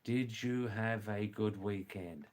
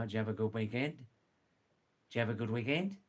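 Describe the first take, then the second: First: "Did you have a good weekend" with each word separate; clear translation. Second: "Did you have a good weekend" run together as one word; all one word. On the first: Teacher translating for learners, "Did you have a good weekend" clearly word by word. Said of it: "Now, I'll translate that". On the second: Teacher showing the Aussie greeting, "Did you have a good weekend" as one word. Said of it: "It's like all one word". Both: Shown as a demonstration.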